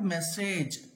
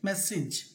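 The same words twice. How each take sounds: First: The final syllable ends with an 'ej' sound. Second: The final syllable ends with an 'ij' sound. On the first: The speaker calls it wrong. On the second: The speaker calls it right.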